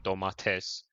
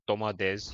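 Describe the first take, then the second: First: The consonant before the last syllable is T. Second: The consonant before the last syllable is D. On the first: This is how people from Turkey say it. "you guys would say domates" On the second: This is how Cypriots say it. "like I said, domades"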